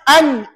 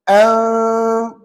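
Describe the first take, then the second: First: The n sound is pronounced clearly. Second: The n sound is faint and nasalized. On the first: "Bunyi nun mati yang jelas" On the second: "tidak tak begitu jelas, samar-samar"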